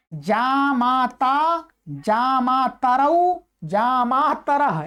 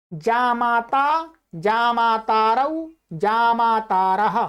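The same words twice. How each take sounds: First: "मातरौ" and "मातरः" said slowly with a short "त", no long aa; corrected short vowel. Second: "मातारौ" and "मातारः" said with a long stretched "ता", mistakenly; wrong long vowel. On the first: Teacher correcting his Sanskrit recitation, slow and careful with a short ta. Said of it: "वो तो ता, ता नहीं होगा". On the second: Teacher reciting Sanskrit forms to students, with a mistaken long aa. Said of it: "हाँ, नहीं, गलत हुआ". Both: Shown as a demonstration.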